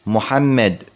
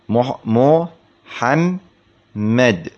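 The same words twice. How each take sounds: First: Said in the usual way. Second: محمد broken slowly into mu, ham, med; split syllables, every م. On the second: Shown as a demonstration. Teacher showing three mims, محمد slowly as mu-ham-med. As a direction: spell out محمد by sound, pausing before the doubled م. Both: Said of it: "فيه ثلاث ميمات".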